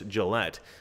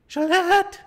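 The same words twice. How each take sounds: First: It is said in his normal voice. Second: It is said in a funny put-on voice.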